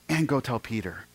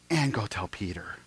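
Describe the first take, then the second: First: Said in the usual way. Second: Breathy whisper, much softer. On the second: Acted. Jesus tenderly singling out the despairing Peter, whispered. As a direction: lean in and whisper it like a secret.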